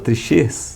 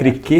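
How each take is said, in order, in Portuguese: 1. A consoante do meio não é um som de k. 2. A consoante do meio é um som de k. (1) "Aí alguns falam trichês" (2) "tem sempre essa questão do C e H que dá o quê"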